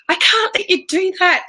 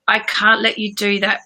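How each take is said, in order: First: It sounds pleading and desperate. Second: It sounds neutral, calm and firm. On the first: The adult feels desperate and out of control. The speaker calls it wrong. "like we're begging them" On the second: The adult is a steady rock for the child. The speaker calls it right. "that neutral, ... really like calm and firm"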